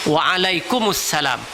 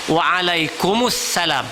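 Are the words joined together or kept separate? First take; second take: joined; joined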